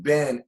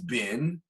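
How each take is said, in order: First: The vowel sounds like 'eh'. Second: The vowel sounds like 'ee'. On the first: "the ben has a segel" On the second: "now it's pronounced bin"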